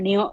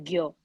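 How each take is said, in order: First: The syllable begins with an n sound. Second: The syllable begins with a g sound. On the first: This is how some other region reads it. "they would read it as uh, Neo" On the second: This is how most Hindi readers read it. "whereas we read it as Gyo"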